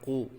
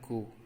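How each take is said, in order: First: It starts with a deep back-of-throat q sound. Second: It starts with a plain front k sound. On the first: The speaker calls it right. "tapi dibaca qu" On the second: The speaker calls it wrong. "tidak boleh dibaca dengan ku"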